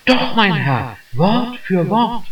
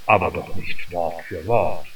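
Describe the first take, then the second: First: Put-on the young clerk proudly insisting; mild eager young voice; eager insistence. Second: Put-on doubtful old gentleman. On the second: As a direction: let the older man sound lightly incredulous. Old councillor doubts the boy.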